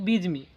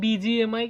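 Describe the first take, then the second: First: The name is said as one short word. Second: The name is spelled out letter by letter. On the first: This is claimed to be the real pronunciation. The speaker calls it right. "আসল উচ্চারণ হচ্ছে বিজমি" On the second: This is how everyone else says it. The speaker calls it wrong. "ওরা সবাই বলে বিজিএমআই"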